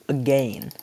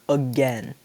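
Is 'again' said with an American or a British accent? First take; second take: British; American. First: It is said with a British pronunciation. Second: It is said with an American pronunciation. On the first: "But he says again" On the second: "in typical American English would be again"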